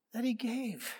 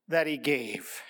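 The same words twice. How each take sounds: First: Repeated much softer and higher; a hushed, reflective repeat; soft echo. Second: Said in the usual way. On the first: Shown as a demonstration. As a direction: let the words sink in gently.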